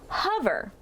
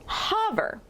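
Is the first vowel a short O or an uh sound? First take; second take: uh; short O. First: The first vowel is a weak uh sound. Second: The first vowel is a short O sound. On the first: The speaker calls it right. "read our first vowel, O, with the schwa sound" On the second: The speaker calls it wrong. "we made this a short O sound"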